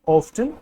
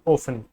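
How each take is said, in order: First: The t sound is clearly pronounced. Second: The t sound is left silent. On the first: "दो pronunciation है इसकी" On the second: "इसे टी silent होता है"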